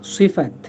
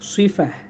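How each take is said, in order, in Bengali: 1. শব্দটি t ধ্বনি দিয়ে শেষ হয়। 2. শব্দটি একটি নরম h ধ্বনি দিয়ে শেষ হয়। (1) "এদের উচ্চারণ সিফাত" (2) "মূল যদি আমরা আরবির যে স্টাইল সেটা যদি বলি তাহলে সিফাহ"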